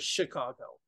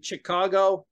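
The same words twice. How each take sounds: First: It begins with an 'sh' sound. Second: It begins with a 'ch' sound. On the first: The speaker calls it right. "instead of Chicago" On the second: The speaker calls it wrong. "A lot of people will say Chicago ... they'll see the C H sound"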